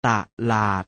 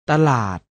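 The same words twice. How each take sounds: First: ต ลาด split into ตะ and หลาด; short ต as ตะ, clear gap, then ลาด; syllable by syllable. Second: Said in the usual way. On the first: Shown as a demonstration. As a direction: sound out ต ลาด in two beats. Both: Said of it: "อ่านว่า".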